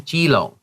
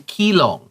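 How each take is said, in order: First: The name begins with a j sound. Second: The name begins with a k sound. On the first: The speaker calls it right. "say jilong" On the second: The speaker calls it wrong. "you don't have to say kilong"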